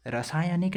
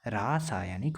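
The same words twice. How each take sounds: First: Short "ra" opening रासायनिक; wrong short first vowel. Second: Long "raa" opening रासायनिक; long first vowel. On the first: Teacher rejecting the wrong form, short first vowel. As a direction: say रासायनिक as ra-SAA-ya-nik. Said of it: "रॉ नहीं होता". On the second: Teacher giving the correct form, long first vowel. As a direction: stretch रासायनिक at the start, RAA-saa-ya-nik. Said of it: "रा होता है". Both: Shown as a demonstration.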